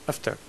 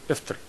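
The two takes are said the same way.

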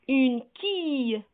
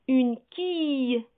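The two takes are said the same way.

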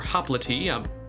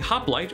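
First: It is pronounced the Greek way. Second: It is pronounced the English way. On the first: "depending on if you use English or Greek" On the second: "depending on if you use English or Greek"

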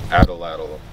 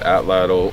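First: The word is said in an exaggerated, odd way. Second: The word is said in a plain, ordinary way. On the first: "if you like to say the ridiculous way" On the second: "You can pronounce it atlatl"

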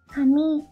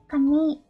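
First: The first syllable is low, then pitch rises. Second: The same.

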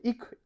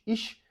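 First: It ends in a hard k sound. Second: It ends in a sh sound. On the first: "може бути «ік»" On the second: "це ваш мундарт"

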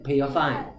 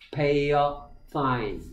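First: The phrase is said quickly. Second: The phrase is said slowly and carefully. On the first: "빠르게" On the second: "입술을 잘 보세요"

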